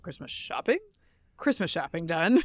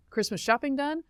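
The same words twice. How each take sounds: First: "shopping" tried out with a questioning rise; wrong emphasis replayed. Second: "shopping done" said with an odd upward lilt; odd emphasis. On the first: Host puzzling over her own slip, odd rise on "shopping". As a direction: repeat "shopping done" with an odd rising lilt. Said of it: "I put the wrong emphasis on the wrong syllable". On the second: Real, not acted. Host listing holiday prep, oddly stressed "shopping". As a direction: put misplaced emphasis on "shopping", rising at the end. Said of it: "that was weird how I said that".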